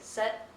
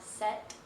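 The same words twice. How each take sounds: First: The final t is clipped and barely pronounced. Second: The final t is clearly and fully pronounced. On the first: "you can say set" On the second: "and not set"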